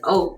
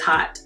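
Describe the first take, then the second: First: The word starts with a vowel, no h sound. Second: The word starts with a clear h sound. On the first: This is how sources online say it. "It says oat on the internet" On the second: This is how most people say it. "but everyone says hot and naughty"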